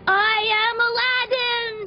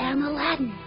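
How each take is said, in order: First: It is said firmly, with authority. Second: It is said meekly, without authority.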